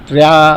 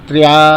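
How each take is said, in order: Both takes have the same delivery.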